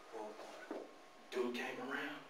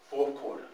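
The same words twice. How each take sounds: First: Hushed whisper, dropping almost silent. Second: Said in the usual way. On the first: Acted. Telling the crowd about the big game, in a hushed whisper. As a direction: whisper it to build suspense. Building suspense before big play.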